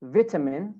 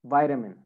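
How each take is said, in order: First: British "vitamin" with short "vit" first syllable; British accent. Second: American "vitamin", first syllable like "vite"; American accent. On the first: Teacher models British "vitamin" for students, short first vowel. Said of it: "In British accent". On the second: Teacher models American "vitamin" for students, long I. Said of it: "In American accent". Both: Shown as a demonstration.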